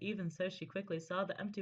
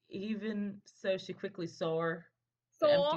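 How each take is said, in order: First: It is read in the speaker's normal accent. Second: It is read in a put-on regional accent.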